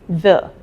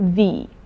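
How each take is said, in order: First: The vowel is a short, weak 'uh' sound. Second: The vowel is a long 'ee' sound. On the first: It is the form used before words starting with a consonant. "All the words which have consonant in the beginning, you say the" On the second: It is the form used before words starting with a vowel. "The is used before all those words which start with a vowel"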